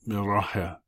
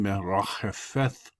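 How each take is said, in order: First: The word ends with a plain t sound. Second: The word ends with a breathy th sound. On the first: It follows modern pronunciation. The speaker calls it right. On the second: It follows the traditional rule for that letter. The speaker calls it wrong.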